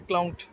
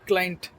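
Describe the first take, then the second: First: The first vowel sounds like 'ow'. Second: The first vowel sounds like 'eye'. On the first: The speaker calls it wrong. "not a clown" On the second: The speaker calls it right. "pronounce as client"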